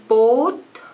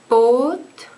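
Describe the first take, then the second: The two takes are said the same way.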